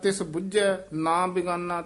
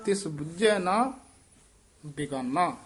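First: There is no pause after ਨਾ. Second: There is a pause after ਨਾ. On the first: The speaker calls it wrong. "ਤੇ ਅਰਥ ਹੀ ਹੋਰ ਹੋ ਜਾਣਾ" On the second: The speaker calls it right. "ਇਹ ਜ਼ਰੂਰ ਨੰਨੇ ਤੇ ਰੁਕਣਾ ਹੈ"

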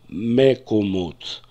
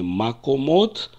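First: The first vowel sounds like 'e'. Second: The first vowel sounds like 'a'. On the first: The speaker calls it right. "а мекомот" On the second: The speaker calls it wrong. "я произношу не макомот"

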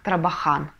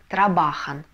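First: The stress is on the last syllable. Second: The stress is on the second-to-last syllable. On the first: The speaker calls it wrong. "а очень часто читают как «трабахан», да? Но это неправильно" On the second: The speaker calls it right. "слово «они работают» будет читаться как"

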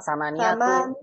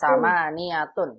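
First: The word ends on a bare vowel. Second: The word ends with an n sound. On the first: The speaker calls it wrong. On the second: The speaker calls it right.

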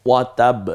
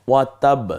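No difference in how they are said.

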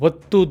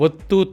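No difference in how they are said.

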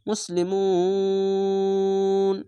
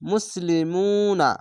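First: The word ends on 'n', after a drawn-out vowel. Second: The word ends with a short 'a' vowel. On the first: The reading stops at the end of the verse. The speaker calls it right. "শেষ অক্ষরে একটি সাকিন দিয়ে মিলিয়ে পড়তে হবে" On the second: The reading continues without a stop. The speaker calls it wrong. "এখানে মুসলিমুনা না বলে এখানে তো আছে, থামতে হবে"

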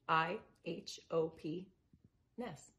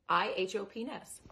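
First: The letters and word are said slowly, with pauses. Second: The letters and word are said quickly, run together.

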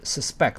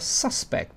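First: The stress is on the second syllable. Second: The stress is on the first syllable. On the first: It is used as a verb. "这个是动词suspect" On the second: It is used as a noun. "名词叫suspect"

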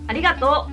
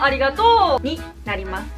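First: The pitch accent falls early in the word. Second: The pitch accent falls late in the word.

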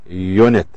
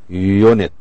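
First: The word begins with a 'yoo' sound. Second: The same.

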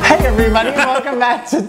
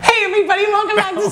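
First: The voice is pitched an octave lower. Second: The voice is pitched higher. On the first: "Try it again, down the octave" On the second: "Not like that"

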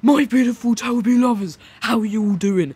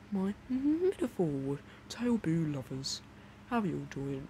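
First: The greeting is shouted loudly. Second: The greeting is said at normal volume. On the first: The speaker calls it wrong. "literally shouting" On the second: The speaker calls it right. "I'm kind of like"

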